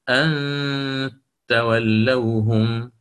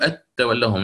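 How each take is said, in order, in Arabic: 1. النون مُخفاة مع غُنّة. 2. النون مبيّنة بوضوح دون إخفاء. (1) "تأتي بإخفاء النون مع الغنة" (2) "ما تقول أن تولوهم"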